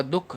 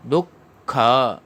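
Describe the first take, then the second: First: दुःख clipped short as dukh, no final a; the wrong way, a quick दुःख; clipped दुःख, the wrong form. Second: दुःख slowly as du-kha with an aspirated kh; teacher models दुःख slowly; dukha. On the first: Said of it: "दुःख नहीं पढ़ा जाएगा". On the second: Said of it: "दुःख ऐसे पढ़ा जाएगा". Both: Shown as a demonstration.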